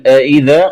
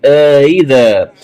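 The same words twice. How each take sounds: First: Said in the usual way. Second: آئذا with long aa, then eased hamza; softened second hamza. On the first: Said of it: "قرأها بتسهيل". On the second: Shown as a demonstration. Teacher showing the variant, آئذا drawn out and softened. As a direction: stretch the start of آئذا, soften into "idha". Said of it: "مع إدخال ألف الفصل".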